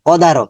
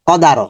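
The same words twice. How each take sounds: No difference in how they are said.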